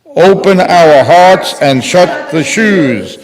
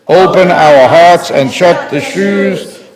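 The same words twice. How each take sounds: The two takes are said the same way.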